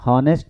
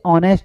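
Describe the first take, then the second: First: The word begins with an h sound. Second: The word begins with a vowel, no h. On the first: The speaker calls it wrong. "हॉनेस्ट नहीं पढ़ते हैं। ठीक है, ये गलत pronunciation होती है" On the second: The speaker calls it right. "इसे ऑनेस्ट पढ़ते हैं"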